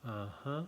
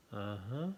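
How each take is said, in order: Both takes have the same delivery.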